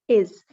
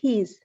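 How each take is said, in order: First: The word begins with no h sound. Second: The word begins with a clear h sound. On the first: The speaker calls it right. "but we say is" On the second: The speaker calls it wrong. "We don't say his"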